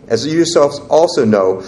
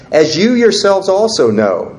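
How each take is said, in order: First: Said in the usual way. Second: As you yourselves also know read higher and louder, proclaiming; scripture reading. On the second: Acted. Pastor reading the verse to the congregation, raised proclaiming voice. Reading voice, then repeated plain.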